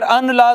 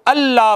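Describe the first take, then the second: First: "अन ला" with a clear n before la; बिना इदगाम. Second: "अल्लाह" with the n gone into a doubled l; इदगाम के साथ. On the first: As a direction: keep the n separate in "अन ला". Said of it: "अन ला तो नहीं पढ़ते". ("अन ला" में नून अलग से बोलकर) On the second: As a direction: go straight onto a held l in "अल्लाह". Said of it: "नून का लाम में इदगाम". ("अल्लाह" में नून छोड़कर लाम पर शद) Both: Shown as a demonstration.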